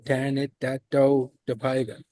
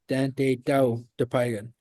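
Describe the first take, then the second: First: Every syllable is pronounced, including the extra one. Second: One syllable is dropped, making it shorter. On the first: This is the complete traditional form. "there's that extra syllable in there again" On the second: This is the everyday form that has lost a syllable. "I'm used to saying"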